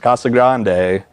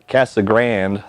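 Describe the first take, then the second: First: It is said with a Spanish accent. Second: It is said with an anglicized English accent. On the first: This is the original way to say it. "but it's" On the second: This is how local English speakers say it.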